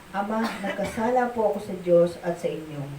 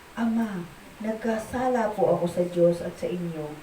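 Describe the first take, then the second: Both takes have the same delivery.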